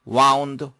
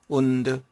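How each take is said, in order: First: The vowel sounds like 'ow' in 'cow'. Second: The vowel sounds like 'oo' in 'moon'. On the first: It is the past form of wind, to coil. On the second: It means to injure.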